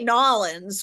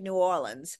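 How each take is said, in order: First: The name is run together into a short form. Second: The name is said out in its full form. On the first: It sounds like the speaker lives there. "that sounds like somebody who's lives there" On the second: It sounds like a visitor's way of saying it. "I say it New Orleans"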